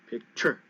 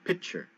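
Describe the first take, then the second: First: The stress is on the second syllable. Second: The stress is on the first syllable. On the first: The speaker calls it wrong. "I could make a mistake" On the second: The speaker calls it right. "the stress is on the first syllable"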